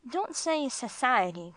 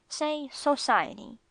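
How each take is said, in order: First: "society" with a weak first vowel, suh-SIGH-uh-tee; mispronounced "society". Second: "society" with a full first vowel, so-SIGH-uh-tee, slowed down; corrected "society". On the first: Correcting Gringo by quoting his slip, "society" said as suh-SIGH-uh-tee. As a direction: slur the start of "society" to suh. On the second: Correcting Gringo's speech, "society" said slowly as so-SIGH-uh-tee. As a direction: model "society" slowly, with a clear "so" at the start. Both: A narrator's reading. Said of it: "I corrected".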